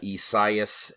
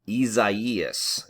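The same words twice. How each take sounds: First: The name is said with an anglicized pronunciation. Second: The name is said with a Portuguese pronunciation. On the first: The speaker calls it wrong. "I've been butchering this name all week" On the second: The speaker calls it right. "the Portuguese way to say it is actually the correct way"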